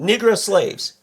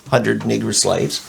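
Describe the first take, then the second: First: Negro as nih-grow, short i; Minnesota pronunciation of Negro. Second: Negro said with a short i, ending in ow; Minnesota pronunciation of Negro. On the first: Real, not acted. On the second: Retold or imitated. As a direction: say Negro like nigro-slaves. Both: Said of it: "it's interesting how you say that".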